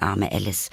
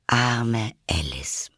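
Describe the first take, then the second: First: Said in the usual way. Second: Slow whispered sympathy; pitying whisper. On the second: A narrator's reading. Narrator pitying poor Alice, whispered slowly. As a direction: breathe it out with pity.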